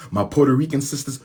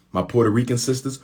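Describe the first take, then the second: No difference in how they are said.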